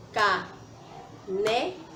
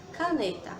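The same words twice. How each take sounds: First: "Caneta" very slowly in three beats, ca-ne-ta; syllable by syllable. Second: Said in the usual way. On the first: Shown as a demonstration. Teacher claps along with children, saying "Caneta" as three separate syllables. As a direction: leave a clear pause after each syllable of "Caneta". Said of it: "as vezes que a gente abre a boca". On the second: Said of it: "vamos separar a palavra caneta".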